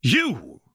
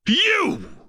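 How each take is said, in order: First: Sharp cry, pitched higher; the master bursts out a second time; angry yell. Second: Shrieking scream, pitched far higher; losing all control; furious scream. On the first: Slave master yelling at the Wraith again, angry yell. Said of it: "the master yelled again". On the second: Slave master screaming at the Wraith, shrieking fury. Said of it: "the master screamed this time". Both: A narrator's reading.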